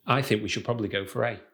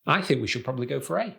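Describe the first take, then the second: First: Quick statement stepping down on "A"; confident falling intonation. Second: Quick statement turned up on "A"; unsure rising intonation. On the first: Coach contrasts intonation, confident answer falling on "A". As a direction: bring "A" down like a decision. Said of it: "Just that alone sounds more confident". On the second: Coach contrasts intonation, unsure answer rising on "A". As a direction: lift "A" like a question. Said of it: "All that changed was the intonation at the end". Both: Shown as a demonstration.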